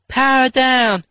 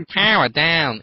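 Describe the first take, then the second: First: Much higher, louder mock hero call; hammed-up chorus. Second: Said in the usual way. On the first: Nick and Chloe powering down, mock heroic chorus. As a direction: shout it like a team of Rangers. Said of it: "repeated Nick and Chloe". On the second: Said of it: "[name] said".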